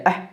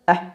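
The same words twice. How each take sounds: Both takes have the same delivery.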